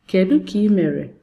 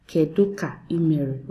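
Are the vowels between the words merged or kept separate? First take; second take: merged; separate. First: The vowels run together across the words. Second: Each word is said separately, vowels kept apart. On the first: The speaker calls it right. "You say Kedu ka ị mere when you're being fluent" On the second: The speaker calls it wrong. "Please don't go saying Kedu ka ị mere"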